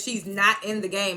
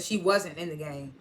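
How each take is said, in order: First: Slow, "not" leaned on; slowly weight "not" in "She's not in the game"; present-tense line, "not" stressed. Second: Slow, lower "wasn't" leaned on; slowly weight "wasn't" in "She wasn't in the game"; the past-tense version, "wasn't" stressed. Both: Retold or imitated. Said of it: "instead of".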